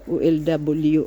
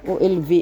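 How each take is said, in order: First: The last letter is said as English W. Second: The last letter is said as V.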